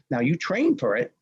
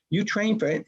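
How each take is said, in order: First: Said in the usual way. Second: "train" pushed up high and leaned on; stress on train. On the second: Retold or imitated. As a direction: hit the word "train" with a higher pitch. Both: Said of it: "Well, there's a novelty, right?".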